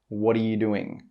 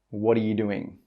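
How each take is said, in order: No difference in how they are said.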